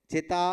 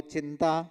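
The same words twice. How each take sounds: First: चिता with no n before the t; without the nasal. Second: चिंता with an n before the t; nasal first syllable in चिंता. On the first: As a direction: say चिता with a plain oral first vowel. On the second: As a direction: sound the nasal dot in चिंता. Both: Shown as a demonstration. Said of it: "बिंदु का अंतर हो गया".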